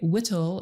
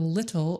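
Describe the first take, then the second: First: The word begins with a W sound. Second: The word begins with an L sound. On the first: The speaker calls it wrong. "when a child mispronounces L, he is substituting W instead" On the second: The speaker calls it right. "instead of little"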